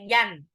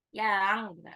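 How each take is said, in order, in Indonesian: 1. Bunyi n diucapkan penuh dan jelas. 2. Bunyi sengau ditarik panjang dan berlebihan. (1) "jadi nggak boleh yan" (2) "Juga nggak boleh lebay, jadi yang. Yang, enggak"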